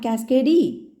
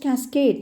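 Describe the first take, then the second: First: An extra vowel sound follows the final D. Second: It ends on the D, with no extra vowel. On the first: The speaker calls it wrong. "not cascade E" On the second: The speaker calls it right. "It is just cascade"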